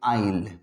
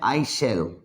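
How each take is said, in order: First: It is said as one short contracted syllable. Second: It is said as two separate full words. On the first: "और बोलेंगे आइल" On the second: "तो ऐसे लिखेंगे इसको"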